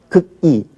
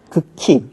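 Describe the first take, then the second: First: The final syllable is said as i. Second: The final syllable is said as hi. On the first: The speaker calls it wrong. "이런 거는 빠르게 발음하라고 해도 못하죠?" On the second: The speaker calls it right. "이건 반드시 희로만 나는 거"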